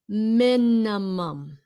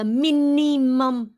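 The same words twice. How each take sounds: First: The i vowels sound like short i. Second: The i vowels sound like long ee. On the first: The speaker calls it right. "The first I is pronounced with a short I" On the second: The speaker calls it wrong. "Không phải là minimum. Those are not E sounds"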